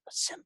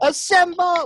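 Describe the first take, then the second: First: The word is said quietly. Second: The word is yelled loudly.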